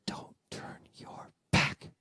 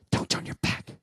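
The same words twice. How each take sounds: First: Drawn-out whisper, word by word; slow ghostly whisper. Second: Quick, forceful whisper; ghostly whisper. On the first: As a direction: whisper it very slowly into an ear. Ghostly voice returns, clearer. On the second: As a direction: hiss it suddenly into an ear. Ghostly voice in his ear. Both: Retold or imitated.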